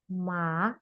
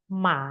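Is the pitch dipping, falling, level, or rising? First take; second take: rising; dipping. First: The pitch rises from low to high. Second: The pitch dips down and rises again. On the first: "agak lebih dari bawah ke atas" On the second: "Dari atas ke bawah, ke atas lagi"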